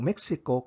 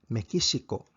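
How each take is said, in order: First: The name is said with its ordinary pronunciation. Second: The name is said with Japanese pronunciation.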